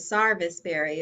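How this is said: It is said in a Western North Carolina way.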